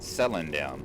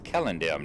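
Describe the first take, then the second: First: The name begins with a soft S sound. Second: The name begins with a hard K sound. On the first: The speaker calls it wrong. "that soft C, that S sound" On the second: The speaker calls it right. "the C's are pronounced as K"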